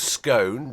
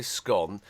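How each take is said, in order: First: "Scone" said to rhyme with cone; long vowel in "Scone", as in "own"; long-o pronunciation. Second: "Scone" said to rhyme with gone; short vowel in "Scone", as in "on"; short-o pronunciation. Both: Shown as a demonstration. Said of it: "depending on the part of the country".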